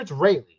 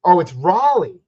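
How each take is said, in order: First: Raleigh said as RAY-lee; preferred pronunciation. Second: Raleigh said as RAH-lee; alternative pronunciation. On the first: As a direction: say Raleigh with "ray" as the first syllable. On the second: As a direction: say Raleigh with an open "ah" in the first syllable. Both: Shown as a demonstration. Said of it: "Is it Raleigh or Raleigh".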